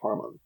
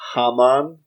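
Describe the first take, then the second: First: The first syllable has an R sound. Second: The first syllable has no R sound. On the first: "they always pronounce it with an R" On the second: "H A M O N is the word"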